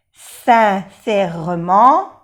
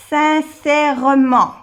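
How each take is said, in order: First: Sincèrement drawn out slowly, the mute e barely sounded; slow careful pronunciation. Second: Sincèrement said carefully, open è, louder; model pronunciation. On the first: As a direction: stretch sincèrement slowly for the class. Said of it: "aunque no se pronuncia mucho la E". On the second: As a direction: read Sincèrement as a clear model. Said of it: "example word read aloud". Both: Shown as a demonstration.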